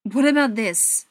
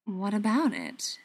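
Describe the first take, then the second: First: Louder, challenging demand. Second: Slow, unruffled reply; unruffled question. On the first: Tommy confronting Adam over the scar on his wrist, demanding. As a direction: throw the question out as a demand. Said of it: "Tommy demanded". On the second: Adam answering Tommy while stroking the scar, slow and unruffled. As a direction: draw the question out, staying calm. Calm answer to angry demand. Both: A narrator's reading.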